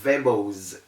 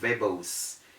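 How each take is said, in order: First: The s is sounded as a z. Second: The s is sounded as an s. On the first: The speaker calls it right. "We have verbose instead of" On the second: The speaker calls it wrong. "instead of"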